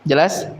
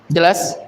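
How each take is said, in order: No difference in how they are said.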